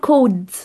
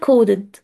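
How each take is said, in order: First: The word is said with one syllable. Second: The word is said with two syllables. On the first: The speaker calls it wrong. "فما ينفعش اقول كود كده" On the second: The speaker calls it right. "كودد هي بتتقال كودد"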